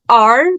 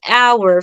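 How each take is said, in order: First: The vowel is a plain sound without a glide. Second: The vowel glides through three sounds together. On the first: The speaker calls it wrong. "This is not our" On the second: The speaker calls it right. "but our, following the triphthong"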